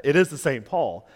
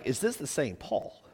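First: Firm emphasis on "is"; stress on IS. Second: Soft, puzzled "Is this the same Paul?"; puzzled question. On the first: Real, not acted. Pastor reassures congregation about the author, stress on "is". Answers the doubting question. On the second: Acted. Reader wonders about Second Corinthians, puzzled question. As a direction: ask "Is this the same Paul?" quietly, as if doubting it.

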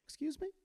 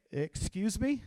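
First: Put-on high, soft, rising teenage squeak; mock adolescent voice, pitched right up; fifteen-year-old boy's voice. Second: Drawn-out indignant question with a rising end; affronted, rising "excuse me?"; challenging retort. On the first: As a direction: imitate a teenager, small and high. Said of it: "in his fifteen-year-old voice". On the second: Retold or imitated. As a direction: throw it back as a challenge. Bob's defiant catchphrase acted out.

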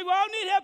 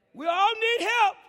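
First: Said in the usual way. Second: Stretched out, stressing help; slow, emphatic. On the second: Shown as a demonstration. Preacher repeating his point to the congregation, slow and emphatic. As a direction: lean hard on each word. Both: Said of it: "I say".

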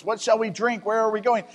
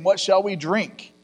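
First: Higher, pleading complaint to Moses; complaining Israelites. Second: Said in the usual way. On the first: Acted. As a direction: whine it up at Moses like a thirsty crowd. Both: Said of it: "they're complaining to Moses".

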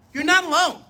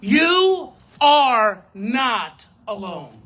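First: Quicker, with "not" hit hard and higher; stress on not. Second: Slow and firm, stress on You; slow emphatic. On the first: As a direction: punch "not" in "You're not alone". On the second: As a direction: lean on "You" and draw "You are not alone" out slowly, a bit louder. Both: Real, not acted. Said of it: "guys, look at me".

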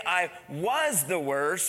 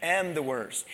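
First: "was" leaned on and slowed, the wrong tense; slow "I was the worst" with weight on "was"; "was" held long, tune rising at the end; stress on WAS. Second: "am" hit firmly, the present tense, tune falling; stress on AM. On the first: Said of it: "He didn't say". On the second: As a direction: land hard on "am" in "am the worst". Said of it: "He said". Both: Shown as a demonstration.

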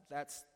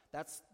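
The two takes are said the same way.

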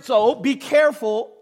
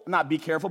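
First: "be careful" slow, higher and louder; stress on be careful. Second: Said in the usual way. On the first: Shown as a demonstration. Pastor explaining the verse's word, slow stressed "be careful". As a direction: lean hard on "be careful".

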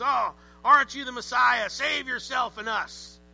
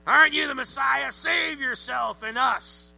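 First: Mocking thief sounding like a pirate; pirate-like criminal. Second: Loud, high, slow sneering criminal. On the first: Preacher's criminal voice slipping into pirate, mock sneer. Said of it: "I sound more like a pirate". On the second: Acted. Preacher voicing the mocking criminal to Jesus, loud sneer. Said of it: "That's my criminal voice".

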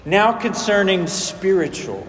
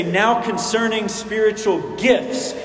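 First: "spiritual" set off as the key word; stress on spiritual. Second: "gifts" stands out at the end, pitched up; stress on gifts. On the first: Preacher shows Paul's emphasis, stress landing on "spiritual". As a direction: lean on "spiritual" instead of gifts. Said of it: "Paul is actually emphasizing the first word". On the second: Preacher shows how we read the verse, stress landing on "gifts". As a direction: lean on the last word, "gifts". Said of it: "our minds are drawn toward the, the latter half". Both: Shown as a demonstration.

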